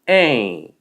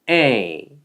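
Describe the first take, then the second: First: The vowel is said without nasal resonance. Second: The vowel is said with nasal resonance. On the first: The speaker calls it wrong. "A가 아니라" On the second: The speaker calls it right. "이게 바로 원어민이 발음하는 A 소리입니다"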